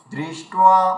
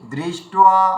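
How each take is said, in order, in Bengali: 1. 'd' এর পরে স্পষ্ট 'ri' উচ্চারণ হয়। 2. 'd' এর পরে স্পষ্ট 'ri' উচ্চারণ হয়।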